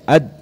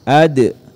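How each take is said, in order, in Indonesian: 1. Huruf d terakhir berhenti datar tanpa pantulan. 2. Huruf d terakhir diakhiri dengan pantulan yang singkat. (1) "jangan dibaca ad" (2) "harus dipantulkan saat disukun"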